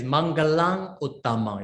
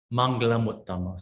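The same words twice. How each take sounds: First: Mangalang Uttama with a stop before Uttama; hard unjoined form. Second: Mangala Muttama linked with the m; smooth joined form. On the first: Teacher showing the awkward unjoined reading, ng kept. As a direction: say Mangalang, then Uttama separately. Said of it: "if you can read like this". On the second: Teacher reading the joined Pali phrase smoothly. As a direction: run Mangala Muttama together. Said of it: "When you pronounce like Mangala Muttama". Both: Shown as a demonstration.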